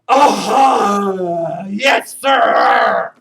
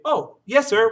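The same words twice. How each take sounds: First: It is said in a mocking, disrespectful tone. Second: It is said in a sincere, respectful tone. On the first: The speaker is being disrespectful. The speaker calls it wrong. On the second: The speaker is showing respect. The speaker calls it right.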